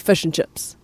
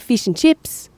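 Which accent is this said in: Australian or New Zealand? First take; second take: New Zealand; Australian. First: It is said in a New Zealand accent. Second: It is said in an Australian accent. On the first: "New Zealanders say fish and chips. So it's a lot more blunt" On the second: "Australians say fish and chips"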